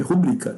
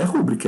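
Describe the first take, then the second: First: "rubrica" stressed on the middle syllable, BRI; correct stress ruBRIca. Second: "rúbrica" stressed on the first syllable, RÚ; wrong stress RÚbrica. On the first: Teacher correcting students' pronunciation, ruBRIca stressed mid-word. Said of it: "é rubrica". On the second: Teacher showing students the mistaken word, RÚbrica stressed up front. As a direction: say "rúbrica" with the beat on RÚ. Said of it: "Agora não é rúbrica". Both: Shown as a demonstration.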